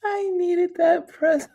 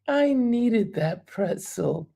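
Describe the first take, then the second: First: High, laughing admission. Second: "I needed that pretzel" said slowly, each word weighed; slow it down and savor "I needed that pretzel"; slow repeat. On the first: Host echoing viewer's pretzel comment, high laughing. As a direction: squeal it out mid-laugh. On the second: Host repeating viewer's line slowly, musing. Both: Real, not acted.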